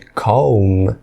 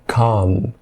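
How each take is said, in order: First: The L sound is pronounced in the word. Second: The L sound is silent in the word. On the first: The speaker calls it wrong. "Ao invés de calm" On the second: The speaker calls it right. "o L não é pronunciado... você fala calm"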